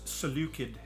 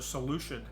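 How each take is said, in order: First: The middle consonant has no sh sound. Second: The middle consonant is a sh sound. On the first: This is the Oxford way to say it. "if you go to Oxford, it's Seleucid" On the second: This is the American way to say it. "the American way to say it actually makes it a, a sh sound"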